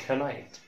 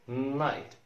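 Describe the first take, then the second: First: "كنايت" with the K sounded before the n; wrong pronunciation. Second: Said in the usual way. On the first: Shown as a demonstration. Teacher warning it is not said so, mispronounced with a sounded K. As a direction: voice the silent K in "كنايت", ke-nite. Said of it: "مش كنايت". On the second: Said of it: "يبقى night مش كنايت".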